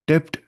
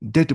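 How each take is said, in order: First: The word is said with a p sound. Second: The word is said without a p sound. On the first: The speaker calls it wrong. "डेप्ट नहीं बोले शायद" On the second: The speaker calls it right. "डेट बोले शायद"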